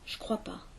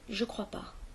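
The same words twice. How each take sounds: First: The pronoun is reduced to a voiceless 'sh' sound. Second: The pronoun is said fully with a voiced 'zh' sound.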